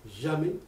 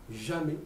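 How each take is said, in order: Both takes have the same delivery.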